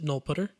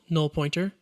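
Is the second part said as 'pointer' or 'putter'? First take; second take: putter; pointer. First: The second part is said as short 'putter'. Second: The second part is said as full 'pointer'. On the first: "sometimes people will pronounce it null putter" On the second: "This constant is called null pointer"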